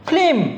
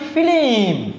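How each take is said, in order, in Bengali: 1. যুক্তব্যঞ্জনটি স্বরধ্বনি ছাড়া উচ্চারিত হয়। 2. স্বরধ্বনি যুক্তব্যঞ্জনটিকে ভেঙে দেয়। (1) "এভাবে উচ্চারণ করি" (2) "মাঝখানে একটা স্বরের আগমন ঘটতেছে"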